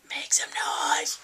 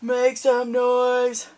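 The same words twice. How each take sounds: First: Slow whispered slogan. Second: Louder, slow stadium chant; slow loud call. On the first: Vlogger teases towel slogan in a whisper. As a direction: breathe it like a secret. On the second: Vlogger reads towel slogan, slow and loud. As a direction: call it out like a ballpark announcer. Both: Shown as a demonstration.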